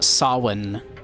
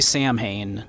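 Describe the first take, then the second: First: The word is pronounced like sow-in. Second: The word is pronounced the way it is spelled. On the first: The speaker calls it right. "That is pronounced Samhain" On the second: The speaker calls it wrong. "you don't say Samhain"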